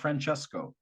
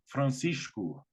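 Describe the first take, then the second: First: The name is said an anglicized way. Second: The name is said the Portuguese way. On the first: The speaker calls it wrong. "he is not Francesco" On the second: The speaker calls it right. "Francesco is Francisco"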